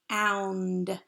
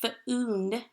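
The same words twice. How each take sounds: First: The vowel sounds like 'ow'. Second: The vowel sounds like 'oo'. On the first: The speaker calls it right. "it is making that ow sound" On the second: The speaker calls it wrong. "We don't say found"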